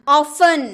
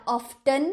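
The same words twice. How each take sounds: First: Often said off-en; silent t. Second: Often with a t, of-ten; mock wrong Often; wrong t sounded. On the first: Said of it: "often बोलते हैं क्या?". (Often, ट नहीं) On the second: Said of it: "नहीं ना". (गलत Often ट के साथ) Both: Shown as a demonstration.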